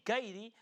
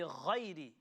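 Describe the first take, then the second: First: The first sound is made with the tongue. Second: The first sound is made in the throat. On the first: The speaker calls it wrong. "that is you using your tongue. That's not the throat" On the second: The speaker calls it right. "is using the throat"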